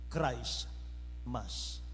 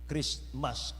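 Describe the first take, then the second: First: The word is split into two separate parts. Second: The two parts are joined into one word. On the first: "ang tama na pag-pronounce niyan" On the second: "kapag pinagdugtong mo yan"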